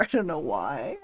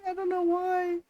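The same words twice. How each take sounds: First: Said in the usual way. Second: High, whiny fake sob; mock crying whine. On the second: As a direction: wail it like a pretend cry. Plain, then whined repeat.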